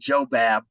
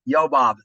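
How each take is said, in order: First: The name begins with a J sound. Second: The name begins with a Y sound. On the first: "Where I grew up, people probably said Joe Bab" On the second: "Yobab is really the right way to say it"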